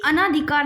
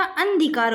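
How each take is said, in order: First: अनाधिकार as a-naa-dhi-kaar; wrong long aa. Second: अंधिकार with n closed before dhi; अंधिकार as an-dhi-kaar; no aa after n. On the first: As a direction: hold the second vowel of अनाधिकार. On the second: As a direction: drop the long vowel in अंधिकार. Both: Shown as a demonstration. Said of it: "अनाधिकार नहीं होता".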